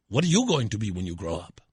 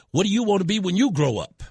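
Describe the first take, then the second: First: Imitated Hispanic accent, lower pitch; thick Hispanic accent. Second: Imitating a superintendent, higher and louder; retold question. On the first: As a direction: ask it in a mock Hispanic accent. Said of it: "In his thick Hispanic accent". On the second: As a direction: put the question to a girl, raised pitch, louder. Retold question, first take.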